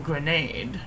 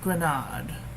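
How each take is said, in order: First: The word has an American pronunciation. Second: The word has a non-American pronunciation.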